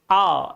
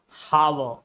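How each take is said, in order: First: The word starts with no h sound. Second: The word starts with an h sound. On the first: The speaker calls it right. "There is no ha, there is no sound of ha" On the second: The speaker calls it wrong.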